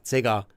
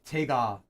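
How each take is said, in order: First: The word begins with a soft z-like sound. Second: The word begins with a plain hard consonant. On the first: "in North Korean is more like a Z" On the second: "instead of like te te tega"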